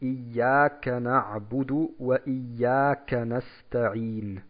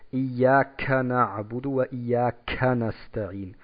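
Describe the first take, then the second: First: The k has only a light puff of breath. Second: The k has an exaggerated, strong puff of breath. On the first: The speaker calls it right. "wir sagen zum Beispiel im Koran" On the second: The speaker calls it wrong. "wir sagen nicht"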